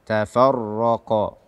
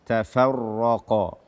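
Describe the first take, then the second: Both takes have the same delivery.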